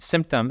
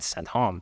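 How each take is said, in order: First: It is said with an English accent. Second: It is said with a French accent.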